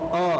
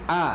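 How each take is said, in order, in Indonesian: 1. Bunyi vokalnya tebal dan membulat, seperti o. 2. Bunyi vokalnya tipis dan terbuka, seperti a. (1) "jangan mengucapkan huruf a dengan membaca dengan o, o, itu tidak tepat" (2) "Yang tepat a, a"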